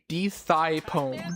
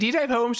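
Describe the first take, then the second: First: The name is said as 'Thigh Poem'. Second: The name is said as 'Type Home'. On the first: The speaker calls it wrong. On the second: The speaker calls it right.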